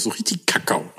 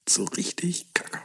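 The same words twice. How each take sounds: First: Said in the usual way. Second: Soft savoring whisper. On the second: Real, not acted. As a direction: breathe it out, savoring. Repeats phrase, whispered.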